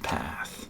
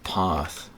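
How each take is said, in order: First: The word is said in an American accent. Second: The word is said in a non-American accent. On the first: The speaker calls it right. "It's just path" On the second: The speaker calls it wrong. "I said path when I'm, I'm trying to do an American accent"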